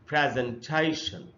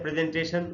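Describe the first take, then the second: First: The main stress falls on the third syllable. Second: The main stress falls on another syllable. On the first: The speaker calls it right. "इसमें जो primary stress है वो यहां पर है तीसरे syllable में ... बिल्कुल सही उच्चारण है" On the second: The speaker calls it wrong. "हम लोग इसको पढ़ लेते हैं प्रेजेंटेशन, वो इसका सही उच्चारण नहीं"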